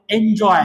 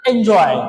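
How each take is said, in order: First: एन्जॉय said with a falling end, stress on जॉय; pronunciation demo. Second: एन्जॉय repeated louder, en-JOY punched and falling; emphatic repeat. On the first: Teacher models the word for students, falling finish. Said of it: "याला काय करू आपण?". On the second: Teacher repeats the word louder so students catch it, emphatic. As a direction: say एन्जॉय again, firmer and louder, JOY stressed. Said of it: "काय करायचंय?". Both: Shown as a demonstration.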